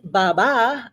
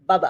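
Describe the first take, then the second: First: The name carries its two tonal accents. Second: The name is said plainly without tonal accents. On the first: "instead of saying Baba" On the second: "I say Baba"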